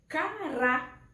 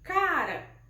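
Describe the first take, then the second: First: The stress is on the last syllable. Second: The stress is on the first syllable. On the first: "quando eu coloco o acento gráfico bem aqui, no último A" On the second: "a gente acha o acento tônico bem aqui no K"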